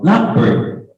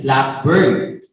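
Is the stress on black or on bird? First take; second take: black; bird. First: The stress falls on black. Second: The stress falls on bird. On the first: It names a kind of bird. "It is a type of a bird" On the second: "if it is color, it is blackbird"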